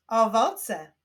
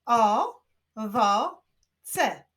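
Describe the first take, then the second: First: Said in the usual way. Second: "O, wo, ce" with pauses between; syllable by syllable. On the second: Shown as a demonstration. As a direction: clap out three beats in "O, wo, ce". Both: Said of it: "Wyklaszczmy sylaby w tych wyrazach".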